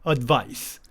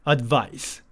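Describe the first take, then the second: No difference in how they are said.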